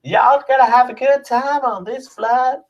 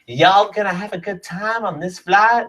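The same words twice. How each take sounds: First: Much higher, hammed-up Southern US air stewardess; Southern US accent, pushed way up in pitch. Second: Southern US accent, high, mock air stewardess; a drawling Southern US air stewardess greeting passengers. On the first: Stewardess greets passengers in a high, hammed-up Southern US accent. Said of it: "What is that voice?". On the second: Southern US flight attendant asking passengers if they're having a good time. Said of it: "they were all like".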